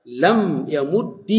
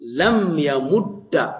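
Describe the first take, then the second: First: لم يمد drawn out slowly with a different final vowel on the dal; slow demo of لم يمد. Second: لم يمد said very slowly, the final dal clear; slow demo of لم يمد. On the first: Teacher modelling the second allowed reading, slowly. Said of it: "جائز". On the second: Teacher modelling the first allowed reading of لم يمد. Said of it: "فعليه تقول". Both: Shown as a demonstration.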